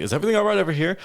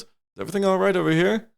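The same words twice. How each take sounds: First: Little halfling man's higher voice, questioning; lightly voiced halfling. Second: Higher, questioning guard voice; lightly voiced guard. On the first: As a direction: play a small halfling guard lightly. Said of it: "just, like, a, a little halfling man". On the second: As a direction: check in as a guard, lightly acted. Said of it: "the guard goes".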